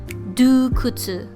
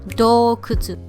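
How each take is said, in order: First: The first vowel is pronounced u. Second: The first vowel is pronounced o. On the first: The speaker calls it wrong. "Do not pronounce this as dukutsu" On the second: The speaker calls it right. "It should be dokutsu"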